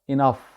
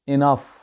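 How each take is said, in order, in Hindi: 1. पहला स्वर 'ih' जैसा सुनाई देता है। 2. पहला स्वर 'ih' जैसा सुनाई देता है।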